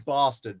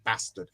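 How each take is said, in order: First: It is said in a Southern English accent. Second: It is said in a Northern English accent. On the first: "We didn't say bastard because we're not Southerners" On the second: "We said bastard"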